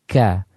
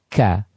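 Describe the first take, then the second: No difference in how they are said.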